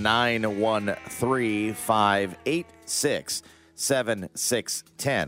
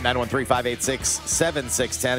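First: The number is read slowly and deliberately. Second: The number is read at normal speed.

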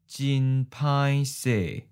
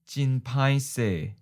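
First: It is said slowly and carefully. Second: It is said at a natural speed. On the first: "and then slow" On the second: "Once natural speed"

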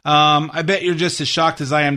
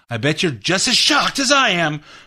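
First: The line is said flatly, without emotion. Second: The line is said with strong emotion. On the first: The speaker calls it wrong. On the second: The speaker calls it right.

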